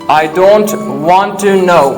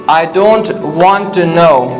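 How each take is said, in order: Both takes have the same delivery.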